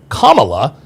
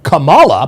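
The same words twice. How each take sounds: First: The stress is on the first syllable. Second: The stress is on the middle syllable. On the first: "putting the accent on the first syllable" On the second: "instead of the middle syllable"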